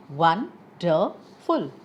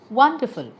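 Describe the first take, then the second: First: "Wonderful" slowly, in three separated syllables. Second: Said in the usual way. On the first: Shown as a demonstration. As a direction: say "Wonderful" as won, der, ful with pauses. Word split to show syllables.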